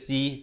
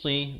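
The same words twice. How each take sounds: First: The 's' sound is light and thin. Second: The 's' sound is heavy and thick. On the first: The speaker calls it wrong. "Jangan baca si" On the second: The speaker calls it right. "Tapi huruf sad"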